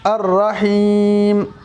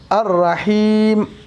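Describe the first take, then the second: First: The word ends on a bare m sound. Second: The same.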